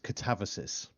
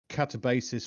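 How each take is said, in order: First: The middle consonant is a v sound. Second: The middle consonant is a b sound. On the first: The speaker calls it right. "apparently it's pronounced differently" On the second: The speaker calls it wrong. "we've been saying it wrong for the longest time"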